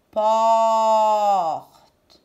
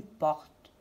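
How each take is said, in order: First: PORTE with a long, loud held O; drawn-out vowel. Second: Said in the usual way. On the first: Shown as a demonstration. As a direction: stretch the O in PORTE. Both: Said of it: "Est-ce que j'entends A".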